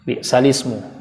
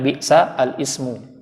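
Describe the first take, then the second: First: Ismu is joined onto the lam, with no glottal stop. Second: Ismu is said separately, starting with a glottal stop. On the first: This is how the phrase is actually read. The speaker calls it right. "Maka ketika dibaca bi'salismu" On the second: This follows the written spelling. The speaker calls it wrong. "Tulisannya bi'sa al-ismu"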